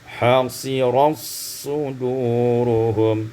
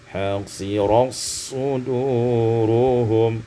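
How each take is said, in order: No difference in how they are said.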